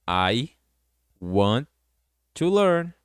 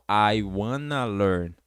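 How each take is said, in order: First: Want and to are said as separate words. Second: Want and to are joined into wanna.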